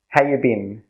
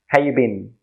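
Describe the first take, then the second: First: It is said quickly with reduced words. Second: The same.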